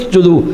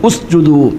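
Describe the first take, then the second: First: The opening u is dropped, linked to the previous word. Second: The word starts with a pronounced u sound. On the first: "ചേർത്തി ഓതുമ്പോൾ ഹംസ ഉച്ചരിക്കില്ല" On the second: "ഉസ്ജുദു എന്നാണ് ഓതുക"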